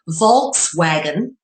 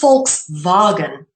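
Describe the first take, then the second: First: The word begins with a V sound. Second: The word begins with an F sound. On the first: The speaker calls it wrong. "what some people in English would call" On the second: The speaker calls it right. "is actually pronounced ... the V is pronounced as an F"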